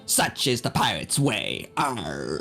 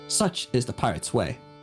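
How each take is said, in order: First: It is said in a put-on pirate voice. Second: It is said in a plain, normal voice.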